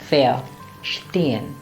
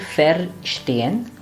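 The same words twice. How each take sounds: First: The first syllable sounds like 'fair'. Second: The first syllable sounds like 'fer'. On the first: The speaker calls it right. "but verstehen" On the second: The speaker calls it wrong. "It should not be verstehen"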